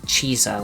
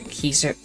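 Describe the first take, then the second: First: The name begins with a ch sound. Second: The name begins with a hard k sound. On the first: This is the church Latin pronunciation. "like a C H sound" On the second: This is the classical Latin pronunciation. "I think it's closer to Kaiser"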